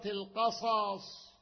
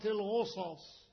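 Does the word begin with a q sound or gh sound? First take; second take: q; gh. First: The word begins with a q sound. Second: The word begins with a gh sound. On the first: The speaker calls it right. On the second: The speaker calls it wrong.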